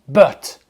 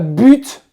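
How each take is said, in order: First: It is said with an English pronunciation. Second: It is said with a French pronunciation. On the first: The speaker calls it right. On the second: The speaker calls it wrong.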